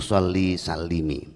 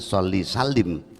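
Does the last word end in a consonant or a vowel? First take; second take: vowel; consonant. First: The last word ends with a short i vowel. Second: The last word ends on a bare consonant. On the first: The speaker calls it right. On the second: The speaker calls it wrong.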